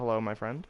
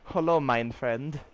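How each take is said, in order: First: It is said in the speaker's ordinary accent. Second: It is said in a German accent.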